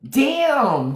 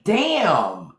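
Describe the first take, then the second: First: "Damn" pitched high and drawn out; a high mock-shocked "Damn"; exaggerated damn. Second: Said in the usual way. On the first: Real, not acted. Reacting to a viewer's comment, mock shocked.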